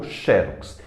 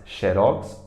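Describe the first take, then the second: First: Xerox as XÉ-rox; stress on XE. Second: Xerox as xe-RÓX; stress on ROX. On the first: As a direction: hit the start of xerox. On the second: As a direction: land on the end of xerox. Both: Shown as a demonstration. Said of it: "tanto faz".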